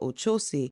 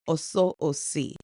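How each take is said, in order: First: The name has an Americanized pronunciation. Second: The name has its Yoruba pronunciation. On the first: The speaker calls it wrong. "as Americans we don't say it right" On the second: The speaker calls it right. "his correct pronunciation is Oso Osi"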